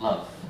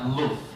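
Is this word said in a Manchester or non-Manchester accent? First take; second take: non-Manchester; Manchester. First: It is said with a non-Manchester accent vowel. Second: It is said with a Manchester accent vowel. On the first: "not love" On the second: "we have quite a specific accent in Manchester. So I say things like love"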